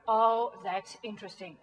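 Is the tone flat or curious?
flat. It is said in a flat, unconvinced tone.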